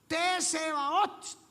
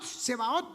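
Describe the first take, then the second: First: The word begins with a TS sound. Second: The word begins with a plain S sound. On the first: The speaker calls it right. "los hebreos lo dicen es con T al principio" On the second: The speaker calls it wrong. "Nuestras traducciones lo hacen Seboat"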